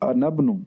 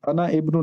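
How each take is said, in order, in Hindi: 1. 'i' छोड़ दिया जाता है, जिससे 'ana' सीधे 'bnu' से जुड़ जाता है। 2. 'ibnu' का 'i' अलग से उच्चारित होता है।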